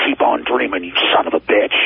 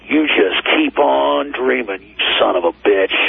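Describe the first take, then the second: First: Low mock hateful growl; hateful snarl. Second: Hateful snarl. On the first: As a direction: sneer it like a demon from The Exorcist. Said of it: "with the most hateful". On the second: Retold or imitated. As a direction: growl it like something out of The Exorcist. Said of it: "with the most hateful, like something out of The Exorcist".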